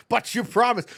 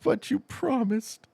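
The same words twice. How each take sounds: First: High, quick imitated complaint; mock protest. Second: High, drawn-out mock plea; imitated pleading. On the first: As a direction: object briskly in a raised voice. Voicing a viewer's protest, first take. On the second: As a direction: stretch it out like a let-down viewer. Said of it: "He's like".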